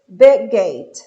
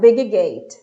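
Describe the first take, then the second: First: The two G sounds merge into one. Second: Each G sound is pronounced separately. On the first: The speaker calls it right. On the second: The speaker calls it wrong.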